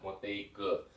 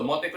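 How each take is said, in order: First: The word is said in full, vowel kept. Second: The word is shortened, with the vowel dropped.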